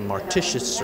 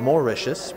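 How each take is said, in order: First: A T sound is pronounced in the middle. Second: No T sound is pronounced in the middle. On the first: The speaker calls it wrong. "Don't let that confuse you and say Martitius" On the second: The speaker calls it right. "Don't say the T. Just skip right over it"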